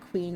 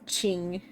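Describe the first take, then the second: First: The name begins with a kw sound. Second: The name begins with a ch sound. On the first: The speaker calls it wrong. "and not Queen" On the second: The speaker calls it right. "it's Ching"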